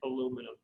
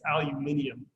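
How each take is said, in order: First: It is said without the extra 'ee' syllable. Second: It is said with an extra 'ee' syllable. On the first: This is the form used in the United States. "here in the United States of America, we say aluminum" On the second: This is the form used outside the United States. "if you go to any other English-speaking country, it's aluminium"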